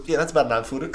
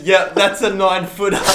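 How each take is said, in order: First: Matter-of-fact. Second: Casual deadpan. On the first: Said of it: "he says it like it's common". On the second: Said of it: "he says". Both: Retold or imitated.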